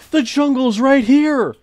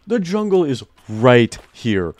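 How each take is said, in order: First: High, slow, loud thrilled exclamation; drawn-out thrilled shout; excited. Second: Said in the usual way. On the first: Real, not acted. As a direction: cry out in delighted surprise. Discovers jungle nearby.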